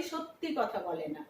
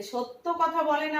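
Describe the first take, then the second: First: সত্যি with a final ই, softer and lower; সত্যি as people say it; সত্যি, quieter spoken form; everyday form. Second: সত্য without a final ই; সত্য said as written, ending in অ; সত্য, the formal form; as spelled. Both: Shown as a demonstration. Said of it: "কি বলি?".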